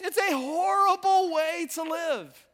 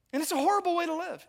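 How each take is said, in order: First: Loud, drawn-out HORRIBLE, high all through; emphatic repeat. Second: Said in the usual way. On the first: Real, not acted. Preacher pressing the congregation to agree, HORRIBLE stretched out loud. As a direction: stretch HORRIBLE wide and slow, driving it home.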